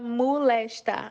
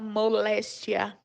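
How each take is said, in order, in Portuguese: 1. A palavra termina sem o som de 'i', regionalmente. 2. A palavra termina com o som completo de 'ia'. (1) "a gente fala molesta" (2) "a gente não fala moléstia, como é no dicionário"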